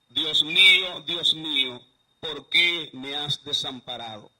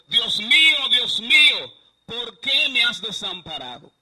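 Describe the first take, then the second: First: It is read calmly at normal volume. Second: It is cried out loudly in despair.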